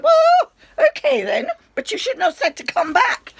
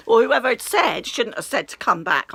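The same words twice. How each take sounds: First: Much higher and louder, half laughing in disbelief; indignant outburst. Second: Said in the usual way. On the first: Retold or imitated. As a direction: blurt it out, squeaky with indignation. Retorting to dismissive doctor.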